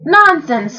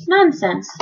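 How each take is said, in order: First: High, scornful exclamation; pooh-pooh it with a raised pitch; snorting dismissal. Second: Higher, mildly scornful; snorting dismissal. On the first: Reader retaking the captain's dismissal of the warning, snorting. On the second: Captain dismissing Bartholomew's warning, mildly snorting. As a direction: brush it off curtly. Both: A narrator's reading. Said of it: "snorted the captain".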